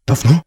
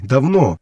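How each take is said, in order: First: "Давно" with a rising, questioning tune; incredulous echo. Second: Said in the usual way. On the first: Acted. Wolf echoing his brother's word, "Давно" as a disbelieving question. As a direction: throw "Давно" back as a higher question.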